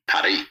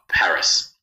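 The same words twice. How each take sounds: First: Paris is said with a French pronunciation. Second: Paris is said with an English pronunciation.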